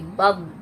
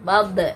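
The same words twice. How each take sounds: First: The final consonant is held without any bouncing release. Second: The final consonant is released with an echoing bounce. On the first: The speaker calls it right. "tapi bob, ditahan" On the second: The speaker calls it wrong. "bukan bob"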